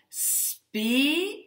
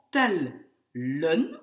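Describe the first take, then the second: First: Spelen as a high held spe, pause, len; cut into syllables. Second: Tellen as tel, pause, len; cut into syllables. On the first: Teacher dividing the word for students, spelen syllable by syllable. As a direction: break spelen after the long E. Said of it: "elle va être découpée en spelen". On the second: Teacher dividing the word for students, tellen syllable by syllable. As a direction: hit tel firmly, then a separate len. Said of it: "pour pouvoir couper mon mot en tellen". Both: Shown as a demonstration.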